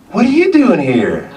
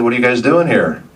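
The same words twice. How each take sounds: First: High, loud Southern woman's question; put-on Southern accent, pitched way up; imitated southern accent. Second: Said in the usual way. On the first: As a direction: mimic a Southern girl quizzing someone. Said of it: "she had this southern accent". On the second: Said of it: "And I said".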